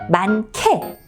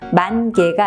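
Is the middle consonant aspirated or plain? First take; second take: aspirated; plain. First: The middle consonant is a strongly aspirated k. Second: The middle consonant is a plain unaspirated k. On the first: The speaker calls it right. "히읗이 기역과 만나서 역시 음가를 바꿉니다" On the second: The speaker calls it wrong. "만개가 아니라"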